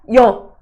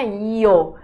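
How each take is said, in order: First: The vowel is closed and said quickly. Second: The vowel is open and drawn out. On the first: The speaker calls it right. "Assim, fechado, rápido" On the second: The speaker calls it wrong. "Não é Yo"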